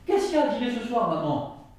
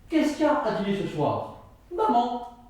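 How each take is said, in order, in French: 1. Maman est collé à la question, comme une interpellation. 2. Maman vient après, comme une réponse séparée. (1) "Premier, ... Tout le monde comprend" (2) "Si je prends une autre intonation"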